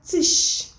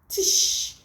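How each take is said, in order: The two takes are said the same way.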